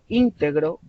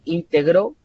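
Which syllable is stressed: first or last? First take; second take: first; last. First: The stress is on the first syllable. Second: The stress is on the last syllable. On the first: It describes a quality of a person. "estoy con la sílaba tónica al inicio" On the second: It is the past tense of the verb. "como el pasado de integrar"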